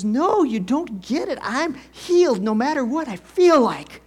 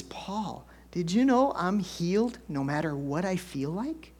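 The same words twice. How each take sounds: First: Imitating wife's loud, high-pitched insistence; excited. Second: Imitating an excited wife, held in at first. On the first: Wife insisting to husband he doesn't get it, excited shouting. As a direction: burst out emphatically, punching each phrase. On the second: Wife phoning husband with her discovery, excited. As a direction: act out a wondering discovery, ending on a rising question. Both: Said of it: "called me up at work all excited".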